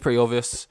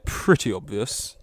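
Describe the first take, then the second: First: It is said in the speaker's ordinary voice. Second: It is said in a put-on character voice.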